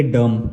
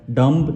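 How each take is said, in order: First: डम ending on m, no b; silent b. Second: डम्ब with an audible b after the m; sounded b. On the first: Teacher giving the correct reading, silent b. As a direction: close डम on the m alone. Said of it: "इसको हम पढ़ेंगे". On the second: Teacher warning against this reading, b sounded. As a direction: release the final b in डम्ब. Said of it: "नहीं पढ़ेंगे". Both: Shown as a demonstration.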